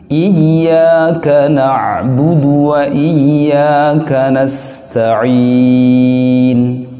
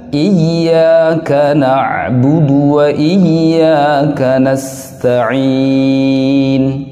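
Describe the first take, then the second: No difference in how they are said.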